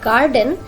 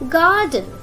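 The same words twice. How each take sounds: First: The R sound is pronounced. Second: The R sound is silent. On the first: The speaker calls it wrong. "Not garden" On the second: The speaker calls it right. "it's garden"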